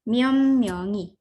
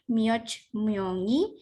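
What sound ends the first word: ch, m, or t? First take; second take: m; ch. First: The first word ends in an m sound. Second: The first word ends in a ch sound. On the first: The speaker calls it right. "tapi jadi M semua" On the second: The speaker calls it wrong. "Jadi lafalnya bukan mioch myongi"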